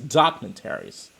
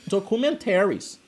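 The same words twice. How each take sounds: First: It is pronounced the English way. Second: It is pronounced the Portuguese way. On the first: "in English is" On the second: "In Portuguese, it would be"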